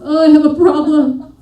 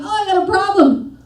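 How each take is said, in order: First: It sounds worried and defeated. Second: It sounds upbeat and confident.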